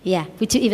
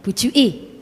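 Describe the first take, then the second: First: Said in the usual way. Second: Surabaya slang. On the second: Shown as a demonstration. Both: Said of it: "Kalau bahasanya Surabaya apa?".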